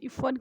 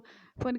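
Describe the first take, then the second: First: The middle consonant is an f sound. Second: The middle consonant is an aspirated p. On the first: This is the name's proper Urdu form. The speaker calls it right. "अगर इफ़न को" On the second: This form could offend the person named. The speaker calls it wrong. "इफ़न कह दे तो उसको ख़राब तो लगता था"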